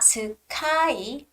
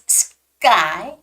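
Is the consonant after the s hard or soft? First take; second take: soft; hard. First: The consonant after s sounds soft and breathy. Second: The consonant after s sounds hard and tense. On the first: The speaker calls it wrong. "It's not sky" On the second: The speaker calls it right. "a little bit tougher and harder, stronger"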